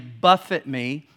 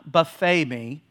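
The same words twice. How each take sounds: First: Buffet is said like the verb for striking. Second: Buffet is said like the word for a meal. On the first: It means to strike repeatedly. The speaker calls it right. "or your version might say buffet me" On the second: It refers to a spread of food. The speaker calls it wrong. "not buffet me. I know it's near lunch"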